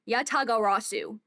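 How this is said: It is said with an American English accent. "Like American"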